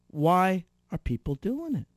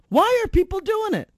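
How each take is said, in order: First: Said in the usual way. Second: Emphatic repeat. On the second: Real, not acted. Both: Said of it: "ask yourself".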